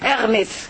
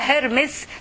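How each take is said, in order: First: The name begins with a vowel, no h. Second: The name begins with an h sound. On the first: This follows the French pronunciation. "بتنطقيها بالفرنساوي اغمز" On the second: This follows how the name is written. "بيكتبوها هرمز"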